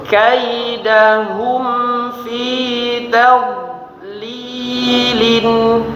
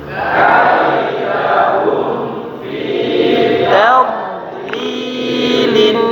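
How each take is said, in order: No difference in how they are said.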